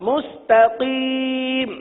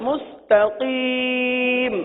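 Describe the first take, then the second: The two takes are said the same way.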